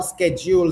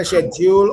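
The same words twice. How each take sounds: First: "schedule" opening with a hard SK, sked-jool; American "schedule" with sk at the start; American pronunciation. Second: British "schedule" with sh at the start; British pronunciation. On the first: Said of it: "Schedule is American pronunciation". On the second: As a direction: say "schedule" the British way, SHED-jool. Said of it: "Schedule is British pronunciation". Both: Shown as a demonstration.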